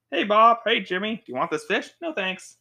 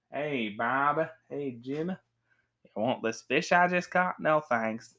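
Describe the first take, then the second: First: Bright-pitched, chipper improv dialogue; higher-pitched back-and-forth skit voices; improv scene. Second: Cowboy drawl for a Western skit; mock Western accent; Western style. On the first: Acted. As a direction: act out a light, lively scene. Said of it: "we acted out a scene like". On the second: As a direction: play it like a hammy Western. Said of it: "Western style".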